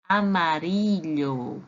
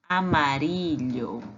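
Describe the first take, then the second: First: "amarillo" said slowly; Spanish pronunciation. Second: "amarillo" repeated slowly; Spanish repeat. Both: Shown as a demonstration. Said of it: "Amarelo em espanhol se diz assim, ó".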